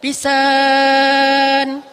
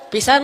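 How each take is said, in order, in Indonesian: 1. Vokalnya dibaca dipanjangkan sangat panjang. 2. Vokalnya dibaca dengan panjang biasa, yaitu pendek. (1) "Semuanya bacanya panjang" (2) "Kalau biasa aja pisan lah gitu ya"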